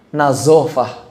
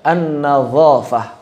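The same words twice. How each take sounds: First: "nazofah" with the middle vowel said as a dark o; wrong pronunciation. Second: "an-nazafah" with a clear open a in the middle; correct pronunciation. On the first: Retold or imitated. Teacher imitating other teachers' wrong "nazofah". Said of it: "mengucapkan nazafah menjadi nazofah". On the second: Shown as a demonstration. Teacher giving students the correct "an-nazafah". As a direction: say "an-nazafah" with a bright a, not o. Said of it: "Padahal harusnya".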